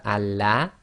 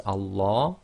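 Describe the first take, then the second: First: Allah with a light, thin "la" as in lamb. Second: Allah with a full-mouthed dark "law"; heavy L in Allah. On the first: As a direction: say Allah with an open front "a", al-lah. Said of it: "we would normally have Allah". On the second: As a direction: say Allah as al-LAW, back vowel as in large. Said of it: "everybody says Allah". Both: Shown as a demonstration.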